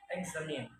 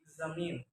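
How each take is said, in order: First: "examine" opening with an e sound; learner's mispronunciation. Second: Said in the usual way. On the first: Shown as a demonstration. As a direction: say "examine" as "eksamin". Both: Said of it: "is pronounced".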